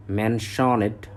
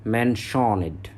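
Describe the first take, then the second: No difference in how they are said.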